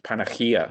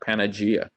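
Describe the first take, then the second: First: The name is said with a Greek pronunciation. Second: The name is said with an Italian pronunciation. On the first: "the correct way is the Greek way, which is Panagia" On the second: "It's always been pronounced Panagia"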